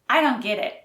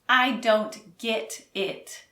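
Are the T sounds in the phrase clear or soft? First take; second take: soft; clear. First: The T sounds are soft and unclear. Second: The T sounds are pronounced clearly. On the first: The speaker calls it right. "Americans don't pronounce the T's clearly in this phrase" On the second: The speaker calls it wrong. "So it's not"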